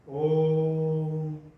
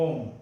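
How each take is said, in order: First: The vowel is stretched out very long. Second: The vowel is said at normal, short length. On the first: A mantra is being chanted. "उसका जो उच्चारण है उसे खींच दिया जाता है" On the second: Someone is calling out a person's name. "ये तो आप किसी व्यक्ति का नाम पुकार रहे हो"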